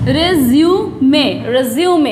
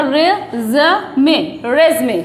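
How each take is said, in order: First: रिज्यूमे said as "re-ZYOO-may"; British pronunciation. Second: रेज़मे said as "REZ-may"; no yoo in रेज़मे, just rez-may; American pronunciation. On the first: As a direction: split रिज्यूमे slowly, then join it. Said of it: "और British में". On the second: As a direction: split रेज़मे, then say it joined. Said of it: "American में इसको बोलते हैं". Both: Shown as a demonstration.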